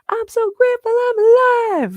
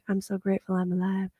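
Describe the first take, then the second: First: It is said with full conviction. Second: It is said meekly and timidly.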